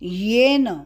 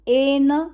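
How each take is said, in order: First: The word starts with a y sound. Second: The word starts directly with a vowel. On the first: The speaker calls it right. "य यज्ञ का और ए की मात्रा" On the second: The speaker calls it wrong. "एन बोलना नहीं"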